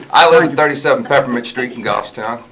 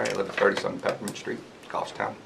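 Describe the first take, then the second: First: Loud, higher, clearly projected address; speaking clearly. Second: Unclear address. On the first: Resident restating his address for the minute taker, speaking clearly. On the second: Resident first introducing himself to the board, unclear and quiet. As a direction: state your address quietly, without projecting. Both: Real, not acted. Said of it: "Everybody has to speak clearly".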